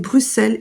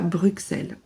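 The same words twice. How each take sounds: First: The middle x is sounded as a plain s. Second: The middle x is sounded as ks. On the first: The speaker calls it right. "vous avez raison, c'est Bruxelles" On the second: The speaker calls it wrong. "et pas Bruxelles"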